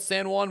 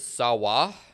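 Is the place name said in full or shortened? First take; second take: full; shortened. First: The name is said with all its sounds. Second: The name is run together and shortened. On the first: "Trinidad has a place called San Juan" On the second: "but we pronounce it Sawa"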